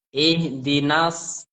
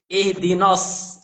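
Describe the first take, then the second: First: The vowel after n sounds clear and open. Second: The vowel after n sounds dark, like o. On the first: The speaker calls it right. "tetap konsisten sesuai huruf yang yang ada dulu" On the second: The speaker calls it wrong. "kedengaran sudah terpengaruh sod"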